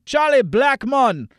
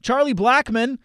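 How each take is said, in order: First: A light, slow Jamaican accent on "Charlie Blackmon". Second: Said in the usual way. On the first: Shown as a demonstration. Host enjoys saying the player's name, light Jamaican accent. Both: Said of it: "I enjoy saying his name with a Jamaican accent".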